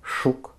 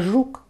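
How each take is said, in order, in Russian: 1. Первый согласный глухой, шипящее ш. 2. Первый согласный звонкий, жужжащее ж. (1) "дефект такой, как оглушение" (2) "вместо «жук»"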